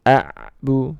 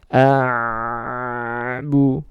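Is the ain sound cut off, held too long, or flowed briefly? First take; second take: cut off; held too long. First: The ain sound is cut off abruptly. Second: The ain sound flows on for too long. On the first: "jangan sampai terhenti" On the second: "nah ini terlalu lama ya"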